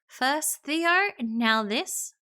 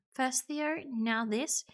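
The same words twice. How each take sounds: First: Loud, pitched-up indignation; indignant. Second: Said in the usual way. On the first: Acted. Player staring at Nate in disbelief, indignant. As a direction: throw it out as a loud accusation. Acted anger, louder first take.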